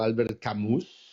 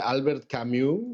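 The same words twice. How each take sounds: First: The name is pronounced the Spanish way. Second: The name is pronounced the French way.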